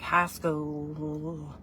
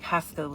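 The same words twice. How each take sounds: First: Drawn-out country drawl on the vowels; country accent. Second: Said in the usual way. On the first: Shown as a demonstration. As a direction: stretch it out slowly in country style. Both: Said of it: "that was actually my accent".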